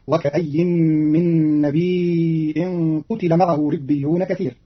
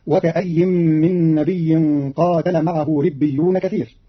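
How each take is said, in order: First: "نبي" drawn out as nabee'in with a hamza, "قتل" as qutila; long ee then glottal stop in "نبي", short u-i in "قتل"; Qalun reading. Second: Said in the usual way. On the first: Shown as a demonstration. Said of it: "بضم القاف وكسر التاء بلا ألف". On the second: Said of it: "بتخفيف الياء ساكنة بعدها همز".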